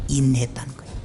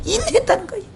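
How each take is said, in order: First: 인내했다는 said low and soft; low repeat. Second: 인내했다는 lifted high; high emphatic repeat. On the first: (인내했다는 을 낮게 눌러서) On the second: (인내했다는 을 높게 강조) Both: Shown as a demonstration.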